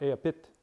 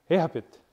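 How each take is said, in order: First: "a pit" with the stress moved onto PIT; shifted stress. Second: "a pit" slowly, with a long, strong "a" like "AY-ha-pit"; stress on first syllable. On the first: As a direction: hit PIT at the end of "a pit". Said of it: "that changes the stress pattern to here". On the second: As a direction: punch the opening "a" of "a pit", drawn out. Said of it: "your stress pattern's". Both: Shown as a demonstration.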